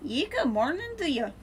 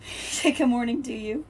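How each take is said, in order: First: A higher, half-hearted mock Irish greeting; Irish accent attempt. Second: Said in the usual way. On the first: Shown as a demonstration. Streamer greets viewer in a clumsy mock Irish accent. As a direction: have a go at an Irish good morning. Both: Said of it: "I can't really do an Irish accent".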